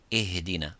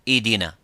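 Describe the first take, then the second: First: The h sound is given time and breath. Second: The h sound is too weak and disappears. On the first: The speaker calls it right. "We give it time and we give it air" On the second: The speaker calls it wrong. "if it's weak and weaker and weaker, you make it weaker, it becomes idina"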